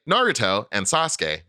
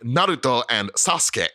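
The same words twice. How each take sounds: First: The names are said with English-style sounds. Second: The names are said with Japanese sounds and tapped r. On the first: This is a normal way to say them in English. The speaker calls it right. "That's like that's perfectly correct" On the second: The speaker is trying too hard to sound Japanese. The speaker calls it wrong. "in English says like Naruto and Sasuke, then like people are gonna be like, all right, calm down"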